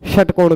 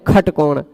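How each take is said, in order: First: The word begins with a 'sh' sound. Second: The word begins with a 'kh' sound. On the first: "तो षट नहीं कहते" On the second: "लोक में भी शखसर कहते हैं, खटकोण कहते हैं"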